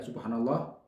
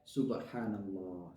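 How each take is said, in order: First: It is said fast. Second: It is said slowly.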